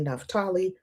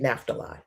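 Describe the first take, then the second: First: The name is said the way Jewish speakers say it. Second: The name is said the Black church way. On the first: This is how one community says it. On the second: This is how the speaker's own community says it.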